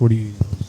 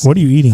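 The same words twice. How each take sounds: First: It is said in a calm voice. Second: It is said in a high-pitched voice.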